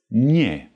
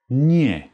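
No difference in how they are said.

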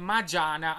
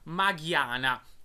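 First: The g is soft, like English j. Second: The g is hard, made in the throat. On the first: The speaker calls it wrong. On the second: The speaker calls it right.

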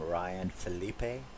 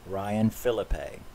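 First: The surname is said in a French style. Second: The surname sounds like Philip, Canadian vowel. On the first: The speaker calls it wrong. "like French" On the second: The speaker calls it right. "his name is pronounced Philip with a Canadian A"

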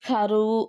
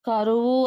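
First: The first consonant is aspirated with a breath. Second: The first consonant is plain, without aspiration. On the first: The speaker calls it wrong. "అల్ప ప్రాణానికి మహాప్రాణాలు ఉచ్చరించు దోషము" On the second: The speaker calls it right. "కరువు అన్నదానికి"

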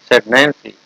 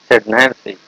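No difference in how they are said.

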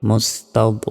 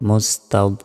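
No difference in how they are said.

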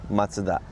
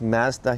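First: Mazda is said with a Japanese pronunciation. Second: Mazda is said with a Canadian pronunciation. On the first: "in Japan we pronounce Mazda" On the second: "pronounced Mazda here in Canada"

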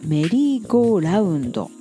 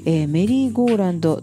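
First: The ending is said as 'raundo' with a u. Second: The ending is said as 'rando' without a u. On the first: The speaker calls it right. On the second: The speaker calls it wrong.

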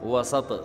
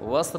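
First: A short a vowel follows the s sound. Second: There is no vowel after the s sound. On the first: Exactly in the middle. The speaker calls it right. "बल्कि वसत, सीन पे जबर होगा" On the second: Anywhere between two points. The speaker calls it wrong. "वस्त नहीं"

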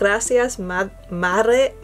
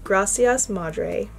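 First: It is said with an attempted Spanish accent. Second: It is said with an American English accent. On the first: "I have a terrible Spanish accent"

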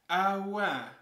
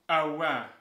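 First: It sounds surprised, with a higher voice. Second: It sounds skeptical, with a stronger voice.

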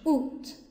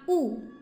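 First: The word ends with an audible t sound. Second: The word ends on the vowel, no t. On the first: "它发音是août" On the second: "也有人发雾，后面那个t 不发音"

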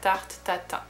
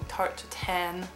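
First: The final N is not pronounced. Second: The final N is clearly pronounced. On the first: The speaker calls it right. "The right pronunciation would be" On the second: The speaker calls it wrong. "they pronounce the N"

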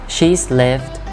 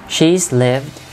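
The two takes are said the same way.

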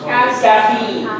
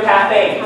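First: The stress falls on the first syllable. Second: The stress falls on the second syllable. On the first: The speaker calls it right. "The stress should be on the first syllable" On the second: The speaker calls it wrong. "forget your caffeine. There's no such word"

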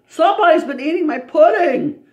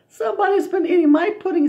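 First: The voice is big and deep. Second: The voice is small and high. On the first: "in a great big voice" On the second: "in a wee little voice"

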